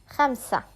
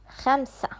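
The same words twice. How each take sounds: Both takes have the same delivery.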